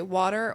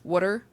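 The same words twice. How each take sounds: First: "water" with a long rounded aw, WAW-ter; Jersey-style WAW-ter; first way of WATER. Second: "water" with a short vowel, WUH-ter; short-vowelled WUH-ter; other way of WATER. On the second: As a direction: say "water" as WUH-ter, rhyming nearly with "putter". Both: Shown as a demonstration. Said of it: "I can say water or water".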